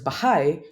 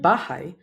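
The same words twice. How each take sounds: First: Bahay with HAY stressed; stress on final syllable. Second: Bahay with BA stressed; stress on first syllable. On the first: Teacher contrasting two Tagalog words, bahay stressed on HAY. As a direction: put the weight on the end of bahay. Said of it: "has stress on the final syllable". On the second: Teacher showing stress in Tagalog, bahay stressed on BA. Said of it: "has stress on the penultimate syllable". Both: Shown as a demonstration.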